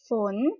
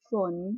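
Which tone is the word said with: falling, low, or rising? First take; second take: rising; low. First: The word is said with a rising tone. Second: The word is said with a low tone. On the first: "ฝนคือเสียงจัตวานั่นเองค่ะ" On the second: "ไม่เอกฝน"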